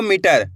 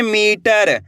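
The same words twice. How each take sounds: First: मीटर with a quick, short मि; short इ mistake. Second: मीटर with मी drawn out long. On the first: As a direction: cut the first vowel of मीटर short, like "mitar". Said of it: "ऐसे नहीं पढ़ना आपको". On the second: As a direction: stretch the ee in मीटर. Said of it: "कैसे पढ़ेंगे". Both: Shown as a demonstration.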